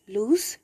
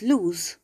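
First: "loose" rhyming with goose; loose with an S sound. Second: "lose" ending in a voiced Z; "lose" rhyming with shoes; lose with a Z sound. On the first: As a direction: say "loose" with a hissed final s, not z. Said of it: "it's lose". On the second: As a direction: say "lose" with a buzzed final z. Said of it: "It's not loose". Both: Shown as a demonstration.

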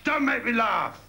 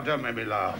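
First: High, exclaimed mock scorn; scornful retort. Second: Low-voiced dismissal; lowered retort. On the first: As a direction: throw it out as a high-pitched jeer. Scornful retort inside the poem. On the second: Same retort redone lower.

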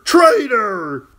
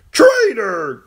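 First: High, loud clown's shout, slightly falling; mock shout. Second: High, loud clown's shout; mock shout. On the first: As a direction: yell it again, capering. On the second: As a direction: yell it like a capering fool. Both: Jester shouting at the girl, loud and playful.

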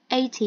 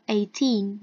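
First: "eighty" stressed on the first syllable "eigh". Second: Put-on "eighteen" with the stress on the final "teen", falling tune. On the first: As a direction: punch the opening "eigh" of "eighty". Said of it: "eighty thì sẽ nhấn vào âm một". (nhấn vào âm một của "eighty") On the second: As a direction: land the weight on the "teen" of "eighteen". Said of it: "Eighteen thì sẽ nhấn vào âm hai". (nhấn âm hai của "eighteen") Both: Shown as a demonstration.

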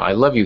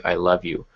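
First: A mild, half-hearted mock shout of I love you. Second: Said in the usual way. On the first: Shown as a demonstration. Writer mocking exclamation-point dialogue, mild mock shout. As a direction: play it as an overdone shouted line, lightly. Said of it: "he shouted". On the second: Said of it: "not normally how somebody would say".

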